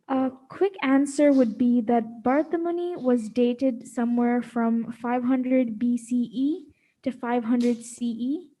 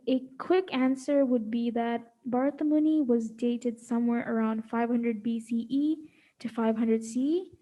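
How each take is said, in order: First: It is read slowly and loudly. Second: It is read fast and quietly.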